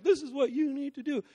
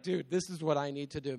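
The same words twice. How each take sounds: First: Higher, louder commanding preacher tone; bossy preacher voice. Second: Said in the usual way. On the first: Retold or imitated. A preacher telling the crowd what they must do, commanding. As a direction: lay down the law like a lecturing preacher. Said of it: "it's not me like". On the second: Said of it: "This is me like".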